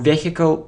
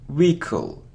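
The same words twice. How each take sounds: First: The h sound is pronounced. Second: The h sound is silent. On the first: The speaker calls it wrong. "or vehicle" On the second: The speaker calls it right. "So we don't pronounce h"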